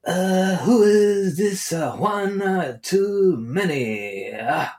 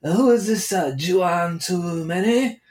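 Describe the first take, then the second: First: High, slow, halting put-on Korean accent; puzzled kid in a mock Korean accent, drawn out; imagined Korean kid. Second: High, slow mock Korean accent, saying "Juan" as "Chuan"; imagined Korean kid. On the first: Korean kid finding the podcast, mock Korean accent. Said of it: "some Korean kid". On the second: Korean kid mispronouncing the host's name, mock accent. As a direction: stretch "Too Many" slowly in a put-on Korean accent. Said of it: "or maybe he would say Juan".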